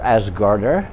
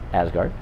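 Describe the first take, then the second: First: The name ends with an extra final sound. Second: The name ends right after 'gard'.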